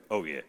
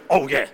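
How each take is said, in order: First: "Oh, yeah" low and soft, deflated; a timid half-hearted cheer; tame "Oh, yeah". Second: Punchy "Oh, yeah" with a fist pump; a loud hammed-up cheer; mock cheer. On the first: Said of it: "you might just go". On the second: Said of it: "what we have to do there is". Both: Shown as a demonstration.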